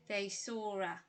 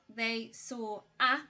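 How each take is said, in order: First: The words run together in connected speech. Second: The words are said separately, without linking. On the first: The speaker calls it right. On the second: The speaker calls it wrong.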